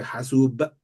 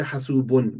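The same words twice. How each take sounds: First: "hasub" cut off on a released b; short spoken "hasub" without its ending; dropped ending. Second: "hasubun" with the final "-un" sounded; full ending. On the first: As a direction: stop "hasub" at the b, leaving out "-un". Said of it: "they say hasub". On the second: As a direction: say "hasubun" through to the closing n. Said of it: "They won't say hasubun, they say hasub". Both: Shown as a demonstration.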